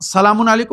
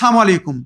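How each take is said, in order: First: The 'l' sound in the first word is pronounced. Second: The 'l' sound in the first word is dropped. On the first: It wishes peace on the listener. The speaker calls it right. "মানে আমি তোমার জন্য শান্তির কামনা করি" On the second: It wishes death on the listener. The speaker calls it wrong. "লাম খেয়ে ফেলে"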